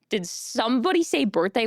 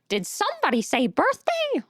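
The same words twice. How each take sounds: First: It is said in the speaker's own voice. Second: It is said in a Mickey Mouse impression.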